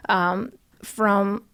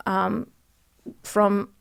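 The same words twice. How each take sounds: The two takes are said the same way.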